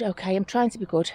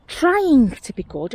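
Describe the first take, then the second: First: Said in the usual way. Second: TRYING drawn right out, higher pitched; stress on TRYING. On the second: Real, not acted. Collector defends filling her bag, TRYING long and emphatic. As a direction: stretch TRYING slowly, starting high. Jokes about her restraint, repeats it.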